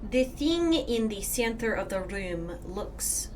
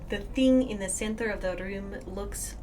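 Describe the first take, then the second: First: It is spoken in a Scottish accent. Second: It is spoken in the speaker's normal accent.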